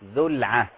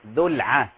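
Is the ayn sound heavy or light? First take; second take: light; light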